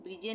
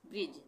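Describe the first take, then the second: First: "ब्रिजे" with an extra ay ending; wrong pronunciation. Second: "ब्रिज" with silent e; correct pronunciation. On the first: Teacher shows what not to read, two-syllable "ब्रिजे". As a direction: sound the final e in "ब्रिजे". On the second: Teacher corrects the reading, one-syllable "ब्रिज". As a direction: stop "ब्रिज" on the j sound. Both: Shown as a demonstration. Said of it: "ब्रिजे नहीं पढ़ेंगे".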